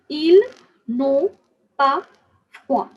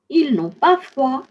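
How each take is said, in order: First: The phrase is spoken slowly. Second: The phrase is spoken faster. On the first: "Let's say this slowly first" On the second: "say this with me a little faster"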